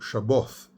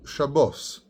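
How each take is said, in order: First: The word ends with a th sound. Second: The word ends with an s sound. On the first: This is the Yemenite way of saying it. "Yemenites do this all the time"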